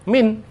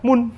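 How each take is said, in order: First: The word has the vowel i. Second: The word has the vowel u. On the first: The speaker calls it right. "dibaca min" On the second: The speaker calls it wrong. "bukan dibaca mun"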